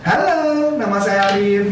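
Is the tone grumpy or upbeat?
upbeat. It sounds cheerful, lively and upbeat. "Ini disebut namanya upbeat"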